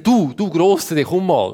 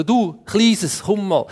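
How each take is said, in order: First: Lightly acted call, drawn-out address; calling a big animal. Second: Lightly acted, higher-pitched call; calling a little animal. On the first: Adam calls a big animal to be named, lightly acted beckoning. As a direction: beckon the big one over. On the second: Adam calls a little animal to be named, higher beckoning. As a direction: coax the little one over in higher pitch.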